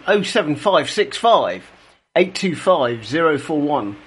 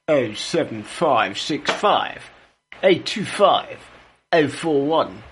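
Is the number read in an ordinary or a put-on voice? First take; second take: ordinary; put-on. First: It is read in an ordinary speaking voice. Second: It is read in a showier, put-on voice.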